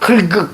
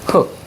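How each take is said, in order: First: Both the L and the K sounds are pronounced. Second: The L is dropped and only K is pronounced. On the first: The speaker calls it wrong. "흙 이렇게 발음하지 않지?" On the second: The speaker calls it right. "리을 기억일 때는 앞에 걸로 발음하는 거예요"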